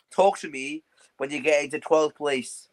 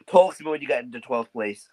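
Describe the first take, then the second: First: Slow and pointed, like a final verdict; slow deliberate taunt. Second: Said in the usual way. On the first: Acted. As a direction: spell it out slowly, word by word. Taunting rival, repeated line.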